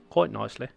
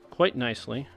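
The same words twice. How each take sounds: First: It is said in a Cockney-sounding English accent. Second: It is said in the speaker's normal accent.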